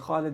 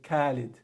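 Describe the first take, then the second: First: It begins with a rough sound high in the throat. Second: It begins with a plain English k sound. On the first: The speaker calls it right. "Instead of saying Khalid" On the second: The speaker calls it wrong. "they'll say Khalid"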